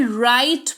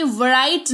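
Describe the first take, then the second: First: राइट starting straight on the R, "rite"; silent W. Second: Write with a voiced V before the R, "v-rite"; wrongly sounded W. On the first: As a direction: say राइट as "rite", no V sound in front. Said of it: "write नहीं". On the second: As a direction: say write slowly as "vuh-rite", sounding the silent W. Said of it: "राइट पढ़ेंगे". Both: Shown as a demonstration.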